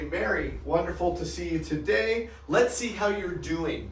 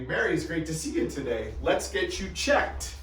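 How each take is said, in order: First: Upbeat greeting. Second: Friendly greeting. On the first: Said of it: "notice the terminology". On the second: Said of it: "That would be a common phrase I would use". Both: Shown as a demonstration.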